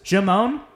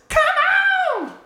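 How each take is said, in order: First: The first sound is a soft J-like sound. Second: The first sound is a clear hard K. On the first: This is the usual way it is said. "he never says come on ever. He says Jamon" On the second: This is how it is said in this one song. "He actually pronounces the K in come on in this song"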